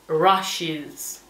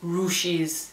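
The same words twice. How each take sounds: First: The first vowel sounds like 'ah'. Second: The first vowel sounds like 'oo'. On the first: The speaker calls it right. "se dice rushes" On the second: The speaker calls it wrong. "nunca tendríais que decir U. No se dice rushes"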